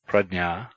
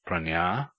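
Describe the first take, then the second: First: The middle cluster sounds like dny. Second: The middle cluster sounds like ny. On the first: "is pronounced as nny, dny, or gy" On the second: "is pronounced pranya"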